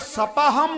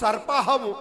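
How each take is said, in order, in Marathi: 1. हा शब्द r चा आवाज न लावता म्हटला जातो. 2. हा शब्द r चा आवाज लावून म्हटला जातो. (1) "सपाहम नाही" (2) "हा वरता रफार कुठे?"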